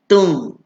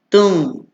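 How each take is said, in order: No difference in how they are said.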